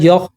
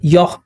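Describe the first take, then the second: No difference in how they are said.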